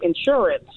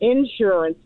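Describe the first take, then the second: First: It is said the local, non-Southern way. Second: It is said the Southern way, as in Texas.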